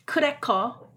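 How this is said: It is said with Korean sounds, ending in o. The speaker calls it right. "you have to pronounce them in a Korean way"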